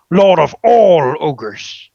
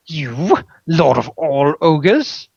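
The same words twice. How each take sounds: First: Slow, loud proud proclamation; triumphant ogre title. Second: Slow, doubtful question; dubious dragon. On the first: Ogre proclaims his new title to the dragon, slow loud triumph. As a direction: roll out the grand title slowly and loudly. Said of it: "Grumblejack's eyes light up". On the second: Dragon doubts the ogre's new title, slow scepticism. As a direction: draw the title out in disbelief. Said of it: "Jerathon looks dubious". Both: A narrator's reading.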